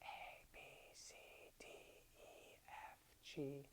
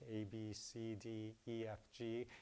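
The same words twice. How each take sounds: First: It is spoken in a whisper. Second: It is spoken in a normal voice.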